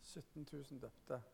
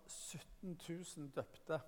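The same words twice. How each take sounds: First: Whisper-soft echo of "Sytten tusen døpte"; hushed repeat. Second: "sytten tusen døpte" slowed right down, each word weighed; slow stress. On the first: Preacher repeating the number to the church, hushed in awe. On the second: Preacher stressing the converts count, slow and weighty. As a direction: let "sytten tusen døpte" land slowly. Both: Shown as a demonstration.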